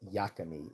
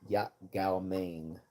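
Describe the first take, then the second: First: The name is run together into one clipped word. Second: The name is said in full, word by word. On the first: This is the local mispronunciation. The speaker calls it wrong. "they were just mispronouncing it" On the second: This is the dish's actual name. The speaker calls it right. "it was yak gao mein"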